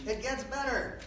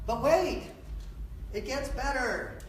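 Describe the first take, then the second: First: High TV pitchman voice on It gets better; infomercial voice. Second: Infomercial voice. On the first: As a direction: sell it like a late-night ad host. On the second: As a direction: hype it up like a late-night TV ad. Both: Shown as a demonstration. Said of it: "Infomercial voice".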